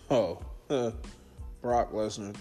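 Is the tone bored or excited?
bored. The name is said in a flat, bored way. The wrestler's arrival no longer matters. "His name don't even ring bells no more to me"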